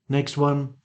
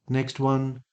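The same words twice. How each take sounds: No difference in how they are said.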